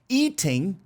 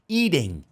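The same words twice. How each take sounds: First: The middle consonant is a crisp T sound. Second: The middle consonant is a soft D-like sound. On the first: "se fosse no inglês mais britânico" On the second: "o norte-americano tem mania de colocar esse T como se fosse um leve D"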